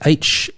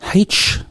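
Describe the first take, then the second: First: The letter starts with a vowel sound. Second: The letter starts with an h sound. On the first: The speaker calls it right. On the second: The speaker calls it wrong.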